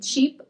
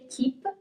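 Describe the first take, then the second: First: The word begins with a ch sound. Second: The word begins with a hard k sound. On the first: The speaker calls it right. "but we say cheap as it's an English word" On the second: The speaker calls it wrong. "we don't say keep"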